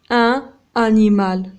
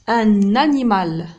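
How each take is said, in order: First: The n is not carried over into animal. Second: The n is linked onto the start of animal. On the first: The speaker calls it wrong. "On dit pas un animal" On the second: The speaker calls it right. "On fait la liaison"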